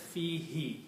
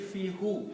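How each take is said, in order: First: The word ends with an 'ee' vowel. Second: The word ends with an 'oo' vowel. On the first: This form is easier on the tongue in recitation. The speaker calls it right. "in the recitation to make it easy on the tongue, it is pronounced as fihi" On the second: This is the underlying form of the word. The speaker calls it wrong. "actually the word will be fihu"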